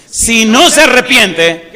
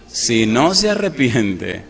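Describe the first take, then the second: First: Much louder, higher and slow; booming warning. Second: Slow and drawn out. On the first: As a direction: proclaim "Si no se arrepiente" like a threat. (advertencia atronadora y lenta) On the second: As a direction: draw out "Si no se arrepiente" slowly and gravely. (lento y grave, alargando las palabras) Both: Shown as a demonstration.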